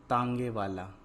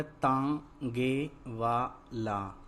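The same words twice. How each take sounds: First: Said in the usual way. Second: तांगे वाला slow, in separate syllables; तांगे वाला with every syllable held apart. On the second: Shown as a demonstration. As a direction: sound out तांगे वाला piece by piece. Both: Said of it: "तो क्या शब्द बना".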